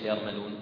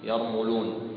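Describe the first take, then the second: First: The vowel after the m is not 'u'. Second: The vowel after the m is an 'u' sound. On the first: The speaker calls it wrong. "ليس" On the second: The speaker calls it right. "بضم الميم"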